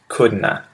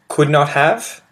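First: The words blend into one short word, 'couldna'. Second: All three words are said fully and separately. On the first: "contractions of could not have" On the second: "It's could not have"

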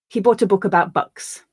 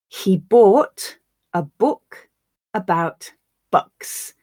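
First: The sentence is spoken at natural speed. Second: The sentence is spoken slowly. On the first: "Once at a more natural pace" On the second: "I'll read the sentence once slowly for you to grasp the words"

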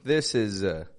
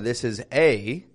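First: The word 'a' is reduced to a schwa. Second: The word 'a' has a full, unreduced vowel. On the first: The speaker calls it right. "That's a schwa" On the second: The speaker calls it wrong. "I'm not saying this is a"

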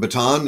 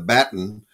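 First: It is said in the speaker's usual American way. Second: It is said the British way, like 'batten'.

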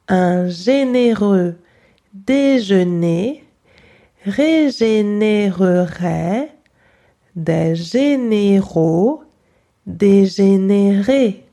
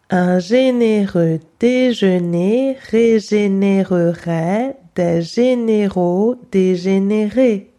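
First: It is said slowly and carefully. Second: It is said very fast.

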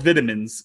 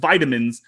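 First: It is said with a British accent. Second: It is said with an American accent.

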